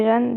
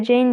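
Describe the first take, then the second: First: Jeanne said the French way, like "Jann". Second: Jane said the English way, like "Djeyn". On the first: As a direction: Jeanne à la française, prononcé "Jane". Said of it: "des fois je dirais Jeanne". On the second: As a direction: say Jane as in English, one syllable with an ey vowel. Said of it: "des fois je dirais Jane". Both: Shown as a demonstration.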